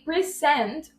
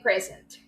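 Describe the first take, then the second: First: The stress is on the second syllable. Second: The stress is on the first syllable. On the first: It is used as a verb. "we are using a verb" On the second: It is used as a noun. "we are talking about a noun"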